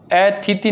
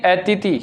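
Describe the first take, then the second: First: अतिथि pitched high, as the rejected form; wrong form shown. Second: अतिथि as the corrected form, falling at the end; correct form shown. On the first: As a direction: hold up अतिथि as the mistake. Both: Shown as a demonstration. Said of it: "अतिथि नहीं".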